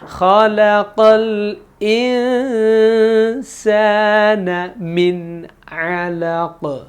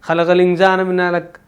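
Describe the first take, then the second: First: The phrase is recited slowly and carefully. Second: The phrase is recited quickly and hurriedly. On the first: The speaker calls it right. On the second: The speaker calls it wrong.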